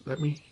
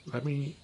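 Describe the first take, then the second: No difference in how they are said.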